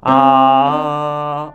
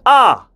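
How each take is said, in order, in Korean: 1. 모음이 느슨하고 풀려 있어요. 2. 모음이 또렷하고 단단히 꼬집혀 있어요. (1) "이렇게 풀린 상태에서" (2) "꼬집는 아를 세 번 해보도록 할게요"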